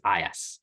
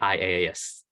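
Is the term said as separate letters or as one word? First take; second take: one word; letters. First: It is said as a single word. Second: It is spelled out letter by letter. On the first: The speaker calls it right. "you'd actually pronounce as a word" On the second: The speaker calls it wrong. "don't say I A S. Bit funny"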